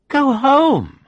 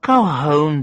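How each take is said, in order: First: Home jumped far higher with a falling end; stress on home. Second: Said in the usual way. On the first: Acted. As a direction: leap up high on home, then drop. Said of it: "she said drunkenly, like a spoiled child".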